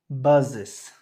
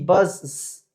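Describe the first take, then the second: First: An extra syllable is added at the end. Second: Only an s sound is added, one syllable. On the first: The speaker calls it right. "Le agrego una E S" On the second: The speaker calls it wrong. "Si yo solamente agrego una S... Suena raro"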